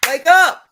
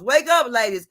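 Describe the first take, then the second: First: Sudden loud call, pitched up; wake-up shout. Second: Said in the usual way. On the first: Real, not acted. Preaching to ladies, loud wake-up call. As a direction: jolt the listeners awake with a shout.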